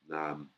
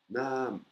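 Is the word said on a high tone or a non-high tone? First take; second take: non-high; high. First: The word is said without a high tone. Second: The word is said on a high tone. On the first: The speaker calls it wrong. "S'il n'y aurait pas l'intonation aiguë, ça ferait nam" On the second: The speaker calls it right. "Là, c'est nam"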